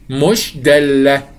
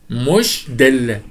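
First: مش دالة slow and firmer; slow emphatic stress. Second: مش دالة drawn out very slowly; slow emphasis. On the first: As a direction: lean hard on مش in مش دالة. (شدد على "مش" ببطء) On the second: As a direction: stretch مش دالة slowly, word by word. (نطق "مش دالة" ببطء شديد) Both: Shown as a demonstration. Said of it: "لا يمثل دالة".

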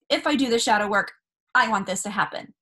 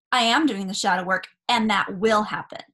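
First: "If" said as a conditional, the wish hanging on it; stress on if. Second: "I am" said firmly, stated as already true; stress on I am. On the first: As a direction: lean on "If I do the shadow work". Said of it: "the word with bargaining that you need to pay attention to is the if". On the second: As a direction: lean on "am" in "I am doing the shadow work". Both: Shown as a demonstration.

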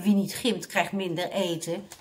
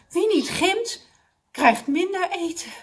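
First: Said in the usual way. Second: High, mildly puffed dismay; panting. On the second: A narrator's reading. Mr Abdul realising food is cut, panting. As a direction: exclaim it as if winded. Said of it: "zei meneer Abdul hijgend".

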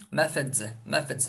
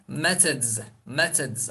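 First: "Methods" with a soft f-like th; f-like th pronunciation. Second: "methods" with a hard t in the middle; t-sound pronunciation. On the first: Teacher shows another pronunciation learners may hear, f-like th. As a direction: say "Methods" as MEF-edz, ending in z. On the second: Teacher shows one way to say the plural, hard-t pronunciation. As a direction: say "methods" as MET-edz, ending in z. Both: Shown as a demonstration. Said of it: "Farklı telaffuzları duyabilirsiniz".

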